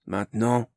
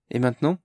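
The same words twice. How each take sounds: First: Said in the usual way. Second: Hesitant rising question; tentative question. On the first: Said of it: "répondit Zarfolk". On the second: A narrator's reading. Barnes asks timidly, rising at the end. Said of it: "hasarda Barnes".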